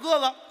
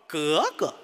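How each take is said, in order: First: It is said in ordinary city Beijing speech. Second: It is said the way Tongzhou locals say it. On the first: "哥哥不叫哥哥" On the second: "叫 格格"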